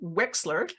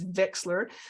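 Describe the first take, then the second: First: The name begins with a W sound. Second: The name begins with a V sound. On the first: The speaker calls it right. "but it's pronounced Wexler" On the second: The speaker calls it wrong. "in my head it's Vexler"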